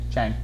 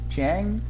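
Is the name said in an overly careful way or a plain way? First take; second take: plain; overly careful. First: The name is said in a plain, simple way. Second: The name is said with overly careful pronunciation. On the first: The speaker calls it right. "Chang is good enough" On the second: The speaker calls it wrong. "I mispronounce by trying to be overly considerate"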